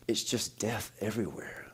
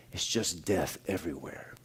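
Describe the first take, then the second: First: Much softer, hushed and grave; hushed eerie quote. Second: Much softer, hushed and grave; hushed echo of the words. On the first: Pastor voicing late wife in dream, hushed and eerie. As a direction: let it fall to a near hush. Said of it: "she goes". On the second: Pastor repeating the dream words to congregation, hushed. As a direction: let it sink in quietly. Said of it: "it really got me thinking". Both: Retold or imitated.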